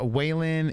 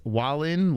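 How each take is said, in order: First: The first syllable does not sound like 'wall'. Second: The first syllable sounds like 'wall'. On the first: The speaker calls it wrong. "It's not Waylon" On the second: The speaker calls it right. "like Wall"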